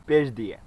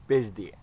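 Both takes have the same delivery.

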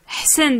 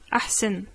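First: The word starts directly with the H sound. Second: A vowel sound is heard before the H. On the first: This is the usual everyday dialect form. "on a tendance à peu prononcer le A et à dire Ahsen" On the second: Some other speakers say it this way. "d'autres personnes peuvent dire Ahsen"

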